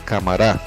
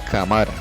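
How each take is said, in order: First: The stress is on the last syllable. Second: The stress is on the second-to-last syllable. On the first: "se convertiría en palabras agudas" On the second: "Al no colocarle la tilde sonaría cámara"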